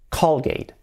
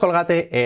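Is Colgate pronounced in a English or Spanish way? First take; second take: English; Spanish. First: It is said with English sounds and stress. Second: It is said with Spanish sounds and stress. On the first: The speaker calls it right. "es Colgate" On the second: The speaker calls it wrong. "Pues no es Colgate"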